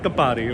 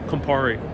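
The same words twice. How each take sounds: First: The name is said with Italian sounds. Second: The name is said with English sounds. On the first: "rather than Campari or something like that" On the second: "Because I'm pronouncing it in English"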